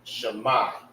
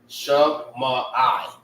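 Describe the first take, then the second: First: The final sounds are run together smoothly. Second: The final sound is split off separately. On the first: "meaning you have to say it together" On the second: "If it was M A I, it will be Shema, Shema I"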